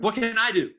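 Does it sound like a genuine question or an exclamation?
exclamation. It is said as a frustrated exclamation.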